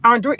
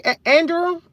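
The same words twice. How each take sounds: First: Andre said as AHN-dray, unsure; trying out Andre. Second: Andrew said as AN-drew, raised high, asking; trying out Andrew. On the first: Live host trying a viewer's name: tentative Andre. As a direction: test the name as Andre, two syllables ending in ray. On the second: Live host checking a viewer's name: questioning Andrew. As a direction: try the name again as Andrew, ending in drew. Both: Shown as a demonstration. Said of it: "Am I saying it right?".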